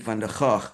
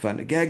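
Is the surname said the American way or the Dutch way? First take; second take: Dutch; American. First: The surname is said with its Dutch pronunciation. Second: The surname is said with an American pronunciation. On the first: This is the name's original form. "this is a Dutch author, and it's actually Van der Gaag" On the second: This is how Americans say the name. "the Americans uh, pronounce it Van der Gag"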